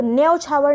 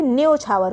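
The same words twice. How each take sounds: First: न्यौछावर with 'au' vowel; wrong form. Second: न्यौछावर as 'nyochhaavar'; correct o vowel. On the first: Teacher rejecting a mistake, 'nyau' in न्यौछावर. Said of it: "न्यौछावर नहीं होता". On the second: Teacher giving correct form, 'nyo' in न्यौछावर. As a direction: round the first vowel of न्यौछावर to 'o'. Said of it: "ओ की मात्रा आ जाती है". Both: Shown as a demonstration.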